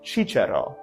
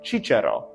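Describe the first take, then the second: First: The word begins with a ch sound. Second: The same.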